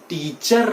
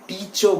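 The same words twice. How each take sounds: First: The word ends with a sounded r. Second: The word ends without any r sound. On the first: The speaker calls it wrong. "टीचर ना बोल के" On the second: The speaker calls it right. "आर is silent"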